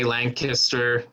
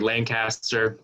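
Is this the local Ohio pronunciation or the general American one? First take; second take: local Ohio; general American. First: It uses the local Ohio pronunciation. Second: It uses the general American pronunciation. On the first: The speaker is from the town. "the locals will say Lancaster" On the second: The speaker is from elsewhere. "Most other folks in the United States say Lancaster"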